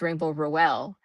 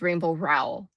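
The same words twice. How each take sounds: First: "Rowell" said "roh-EL", in two syllables. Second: "Rowell" said like "rowl", rhyming with towel; Rowell as one syllable. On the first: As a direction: split "Rowell" into roh and well. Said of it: "you always pronounce it as Rainbow Rowell". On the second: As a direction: make "Rowell" rhyme with "towel". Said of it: "how do we pronounce the last name of Rainbow?". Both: Shown as a demonstration.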